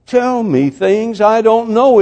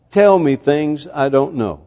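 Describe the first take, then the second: First: "Tell me things I don't know" slow and high, each word stretched out; slow, high, preacherly "Tell me things I don't know"; emphatic repetition. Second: Said in the usual way. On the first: Retold or imitated. Preacher repeats child's plea emphatically.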